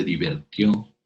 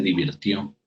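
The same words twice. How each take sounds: First: Divirtió said as diver-tió, with e; the incorrect divertió, e in the second syllable; mispronounced divirtió as divertió; wrong form divertió. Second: Divirtió with a clear i, di-vir-tió; correct divirtió. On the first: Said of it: "No se dice". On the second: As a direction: say divirtió properly, vir not ver. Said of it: "se dice". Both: Shown as a demonstration.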